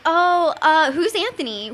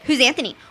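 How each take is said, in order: First: It is said in a put-on voice. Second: It is said in a plainer voice.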